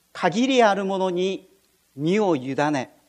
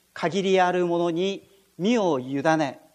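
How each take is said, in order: The two takes are said the same way.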